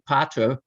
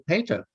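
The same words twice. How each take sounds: First: It is said the Italian way. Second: It is said the English way. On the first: This is close to how the Romans said it. "in Italy, they, they say pater" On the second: The vowels shifted away from the Roman pronunciation. "But in England, they say pater"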